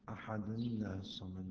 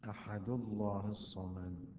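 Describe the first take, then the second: First: Ahad links with -ni into a light l. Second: Ahad ends without n; the l is heavy. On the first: The speaker calls it right. "بأن يكسر نون التنوين" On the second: The speaker calls it wrong. "بحذف التنوين من أحد"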